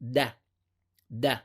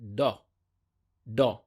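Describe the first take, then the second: First: The sound is short, sharp and light. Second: The sound is heavy and deep. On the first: The speaker calls it right. "the right pronunciation for this letter is da da" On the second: The speaker calls it wrong. "say it with heavy pronunciation, that is to say do do"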